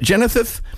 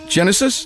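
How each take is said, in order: First: The s sounds are lisped like th. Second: The s sounds are clear, with no lisp. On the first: The speaker calls it wrong. "Is there a lisp in Genethith?" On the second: The speaker calls it right. "There's no lisp in it?"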